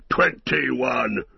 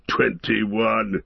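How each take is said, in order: First: Mildly cried-out dwarf tally; Gimli. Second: Lightly voiced dwarf tally; Gimli. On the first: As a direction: call out the count with restrained triumph. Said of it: "cried Gimli". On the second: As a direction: state the count in a dwarf's voice, not cried out. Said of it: "said Gimli". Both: A narrator's reading.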